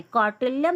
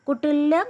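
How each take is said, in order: First: कौटिल्यम with a full au sound at the start; carefully fixes it to कौटिल्यम, kau-til-yam; corrected pronunciation. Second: कुटिल्यम with a short u in the first syllable; slip of the tongue. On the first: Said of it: "sorry". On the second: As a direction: says कुटिल्यम as ku-til-yam, mispronounced. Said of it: "sorry, कौटिल्यम". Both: Real, not acted.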